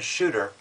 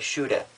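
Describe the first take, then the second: First: It is said with a general American accent. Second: It is said with a Boston accent.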